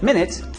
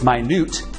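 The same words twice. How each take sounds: First: The stress is on the first syllable. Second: The stress is on the second syllable. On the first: It means sixty seconds. "When M I N U T E is pronounced as minute, it means sixty seconds" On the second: It means extremely small. "When it's pronounced as minute, it means extremely small"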